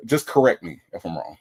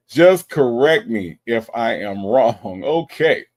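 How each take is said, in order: First: Said in the usual way. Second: "Just correct me if I am wrong" slowed right down and louder; slow emphatic repeat. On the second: Real, not acted. Streamer asking viewers to correct the pronunciation, slow and emphatic. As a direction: spell out each word of "correct me if I am wrong" firmly.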